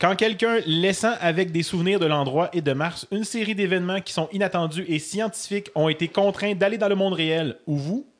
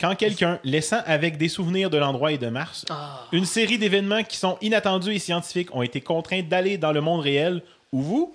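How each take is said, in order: The two takes are said the same way.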